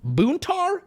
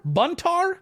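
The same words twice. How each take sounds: First: Buntar with a long "oo", like "BOON-tar"; tentative pronunciation. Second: Buntar with a short "uh", like "BUN-tar"; alternative pronunciation. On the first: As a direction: sound out Buntar as "boon-tar", unsure, pitched up. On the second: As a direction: try Buntar as "bun-tar", rising as if unsure. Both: Real, not acted. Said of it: "I'm gonna pronounce this so wrong".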